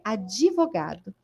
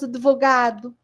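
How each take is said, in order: First: It is said with a Brazilian Portuguese pronunciation. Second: It is said with a European Portuguese pronunciation. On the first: "Nós falamos o quê? Advogado" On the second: "Nós não falamos advogado, como os portugueses de Portugal"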